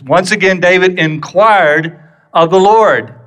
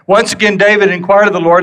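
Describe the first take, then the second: First: It is read more slowly with strong emphasis. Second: It is read quickly without special emphasis. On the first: "don't miss the emphasis" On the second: "I'm reading that fast"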